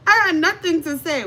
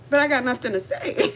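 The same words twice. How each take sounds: First: Higher and louder repeat; insistent emphatic repeat. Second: Said in the usual way. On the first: Shown as a demonstration. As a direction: punch it out the second time.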